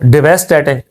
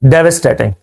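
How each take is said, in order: First: It is read as spelled, with a full 'vess'. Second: The second syllable is reduced, sounding like 'viss'. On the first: The speaker calls it wrong. "लफ्ज को देखा जाए तो पढ़ा जाए इसको डेवेस्टेटिंग" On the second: The speaker calls it right. "सही pronunciation क्या है?"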